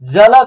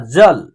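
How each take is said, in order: First: A full vowel is sounded after the final l. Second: The word ends on a bare l, no vowel. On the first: The speaker calls it wrong. "अगर इसको हम लोग जल जल करेंगे तो उच्चारण गलत हो जाएगा" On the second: The speaker calls it right. "तो इसका शुद्ध उच्चारण क्या हो रहा है ना"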